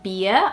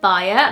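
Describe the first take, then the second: First: The nickname is said with a Portuguese pronunciation. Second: The nickname is said with an English pronunciation. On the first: "The nickname for Beatriz in Portuguese is usually" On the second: "over here it would probably be"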